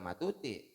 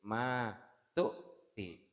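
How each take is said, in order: First: The first vowel is short, with no stop. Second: The first vowel is long, with a stop. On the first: The speaker calls it wrong. "bukan matuti ya" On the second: The speaker calls it right. "Di maknya panjangin, tu-nya berhentiin"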